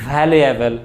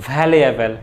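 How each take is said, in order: No difference in how they are said.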